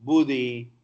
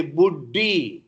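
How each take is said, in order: First: Buddhi with a single short d; no gemination. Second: Buddhi with the d held long; doubled consonant. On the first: Teacher contrasting English and Telugu buddhi. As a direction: say buddhi without doubling the d. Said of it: "But in English". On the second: Teacher showing students the doubled d in buddhi. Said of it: "because there is d". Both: Shown as a demonstration.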